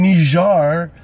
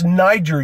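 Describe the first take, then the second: First: The name is said like Nee-zhar. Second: The name is said like Nye-jer. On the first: It copies the newer pronunciation heard on the news. The speaker calls it wrong. "pronounced it Nijar" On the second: It keeps the dictionary pronunciation. The speaker calls it right. "It's Niger"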